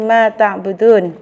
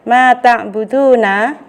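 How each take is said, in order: First: The phrase ends on a consonant sound. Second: The phrase ends with a final vowel sound. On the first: The reader stops at the end of the verse. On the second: The reading continues without stopping.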